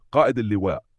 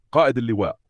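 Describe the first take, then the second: First: Mildly hesitant soldier; hesitant reply. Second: Soldier calling his commander, a little higher and louder. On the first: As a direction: answer your commander with a touch of reluctance. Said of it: "يرد الجندي بتردد". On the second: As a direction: call out to a superior officer. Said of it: "ينادي جندي". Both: A narrator's reading.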